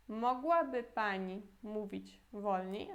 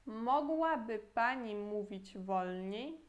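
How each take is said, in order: First: Slow second model of the same question; slow teaching repeat. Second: Slow, careful Polish model sentence; slow teaching read; slow model phrase. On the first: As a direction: repeat it slowly so they can copy. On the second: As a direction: spell it out slowly for learners. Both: Shown as a demonstration. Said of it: "de novo".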